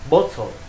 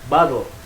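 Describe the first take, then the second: First: It is spoken with a British accent. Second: It is spoken with an American accent. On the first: "Di Inggris bottle" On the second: "Di Amerika dia bacanya bottle"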